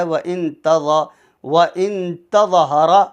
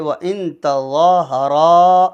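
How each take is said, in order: First: "تَظَاهَرَا" with the zaa and raa cut short; short-vowel "تَظَاهَرَا" as a mistake; imitating a misreading. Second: "تَظَاهَرَا" with long zaa and long raa; slow recited "تَظَاهَرَا"; stretched recitation. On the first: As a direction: recite without stretching the vowels. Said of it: "اس کو اگر کوئی پڑھتا ہے". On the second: Shown as a demonstration. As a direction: draw out both aa vowels, louder. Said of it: "را کے آگے الف ہے".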